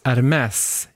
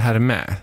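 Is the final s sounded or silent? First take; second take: sounded; silent. First: The word ends with an audible s sound. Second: The word ends on a vowel, no s. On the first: The speaker calls it right. "väskorna uttalas Hermès" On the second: The speaker calls it wrong. "inte Hermé"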